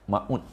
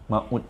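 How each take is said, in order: First: The diphthong is said hard and abruptly. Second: The same.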